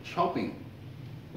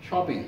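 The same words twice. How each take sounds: First: शॉपिंग said very slowly and softly, ng held at the end; slow, soft शॉपिंग with a lingering final ng; drawn-out demo word. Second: Said in the usual way. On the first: Shown as a demonstration. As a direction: stretch शॉपिंग to show the ng ending. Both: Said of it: "आखिर में आएगा तो फिर वहाँ पर pronounce किया जाएगा".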